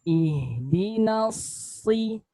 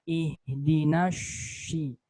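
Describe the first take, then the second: First: The consonant sounds like an 's'. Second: The consonant sounds like a thick 'sh'. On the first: The speaker calls it right. "Jadi bibirnya nggak perlu monyong" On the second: The speaker calls it wrong. "Jangan kita ucapkan eh, seperti huruf shin tapi dibaca tebal"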